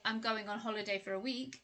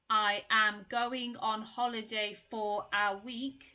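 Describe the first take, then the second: First: Small words are reduced and linked together smoothly. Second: Every word is said in its full, strong form. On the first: The speaker calls it right. "it sounds much more natural and connected" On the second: The speaker calls it wrong. "if everything is strong, then it's going to sound quite unnatural ... sounds quite robotic"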